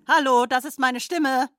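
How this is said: The sentence is spoken in an angry tone. "Bitte sprechen Sie diesen Satz nun wütend"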